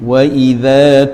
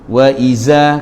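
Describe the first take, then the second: First: The consonant is a soft 'dh' sound. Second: The consonant is a buzzing 'z' sound. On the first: The speaker calls it right. "tu zal. Jadi kena pergi ke betul-betul zal" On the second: The speaker calls it wrong. "itu bukan zal lagi, sudah jadi zai"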